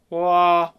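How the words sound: It is spoken in a full chest voice. "That's chest voice"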